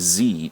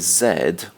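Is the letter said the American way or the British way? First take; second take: American; British. First: It is said the American way, as zee. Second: It is said the British way, as zed.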